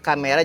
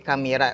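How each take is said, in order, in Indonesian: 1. Vokal tengahnya seperti 'e'. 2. Vokal tengahnya seperti 'i'.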